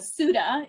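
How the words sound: The name is said with an American pronunciation. "the Americanized pronunciation"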